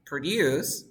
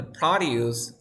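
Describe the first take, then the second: First: Produce as a verb, pro-DUCE; pro-DUCE, end-stressed produce; stress on second syllable. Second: Produce as a noun, PRO-duce; PRO-duce, front-stressed produce; stress on first syllable. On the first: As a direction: punch the last syllable of "produce". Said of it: "the stress is in the second syllable". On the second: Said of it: "the stress is in the first syllable". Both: Shown as a demonstration.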